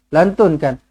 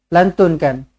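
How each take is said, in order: The two takes are said the same way.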